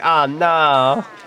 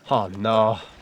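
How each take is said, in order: First: It is said in a Luigi impression. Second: It is said in his normal voice.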